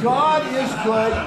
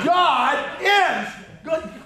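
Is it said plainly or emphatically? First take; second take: plainly; emphatically. First: It is said plainly, without extra emphasis. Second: It is said with strong, forceful emphasis.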